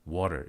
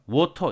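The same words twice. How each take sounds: First: The t is a quick tongue tap. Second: The t is a full stop consonant. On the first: "미국 영어에서 water, water 이렇게 얘기했다. 그랬을 때 이것은 flap 되었다" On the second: "이렇게 하면 설탄이 아니죠"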